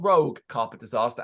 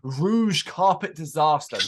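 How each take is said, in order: First: The first word sounds like 'rogue', ending hard. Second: The first word sounds like 'rouge', ending soft. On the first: The speaker calls it wrong. "not Rogue Carpet Disaster, as I spent weeks saying in my head" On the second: The speaker calls it right. "it is Rouge Carpet Disaster"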